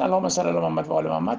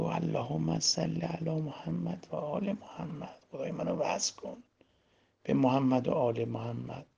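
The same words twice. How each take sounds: First: Low, fast, perfunctory rattle; careless rote recitation. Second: Slow, hushed salawat; soft, calm prayer. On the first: Preacher shows listeners an empty salawat, careless and hurried. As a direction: rattle the blessing off as if it meant nothing. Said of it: "حالا الکی بفرستین". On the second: Preacher shows listeners how to connect, praying softly and slowly. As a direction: say it very softly, lingering on each phrase. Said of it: "اتفاقاً آروم بگو". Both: Shown as a demonstration.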